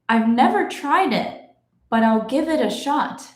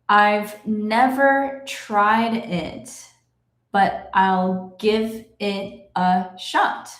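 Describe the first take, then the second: First: The sentence is read at a moderate pace. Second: The sentence is read very slowly. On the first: "let's go a little faster now" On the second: "I will read it slowly"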